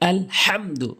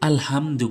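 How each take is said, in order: First: The h sound is deep, from the mid-throat. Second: The h sound is light, made at the front. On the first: The speaker calls it right. "হলকের মাঝখান থেকে বলতে হবে" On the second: The speaker calls it wrong. "অনেকে যেটা সবচেয়ে বেশি ভুল করে"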